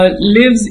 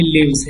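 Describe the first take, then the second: First: لیوز ending in a hissed S, not Z; wrong S ending. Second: لیوز ending in a voiced Z. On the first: Teacher warning students off the S sound, wrong لیوز ending in S. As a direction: say لیوز with an unvoiced S at the end. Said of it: "لیوز نہیں کہنا". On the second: Teacher modelling the verb for students, لیوز with a Z ending. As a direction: say لیوز with a buzzing final Z, not S. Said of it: "زیڈ کی طرح پروننس کریں گے". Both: Shown as a demonstration.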